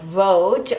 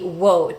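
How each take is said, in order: First: The word begins with a V sound. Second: The word begins with a W sound. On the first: "the word vote" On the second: "maybe wote for speakers of other languages, especially Russian"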